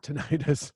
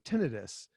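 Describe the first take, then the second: First: The word ends like 'itis', tin-EYE-tis. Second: The word ends like 'itus', TIN-ih-tus. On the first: The speaker calls it wrong. "is not tinnitus" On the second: The speaker calls it right. "but tinnitus"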